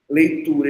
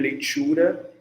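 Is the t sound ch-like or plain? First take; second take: plain; ch-like. First: The t is a plain dental stop. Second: The t sounds like a ch sound.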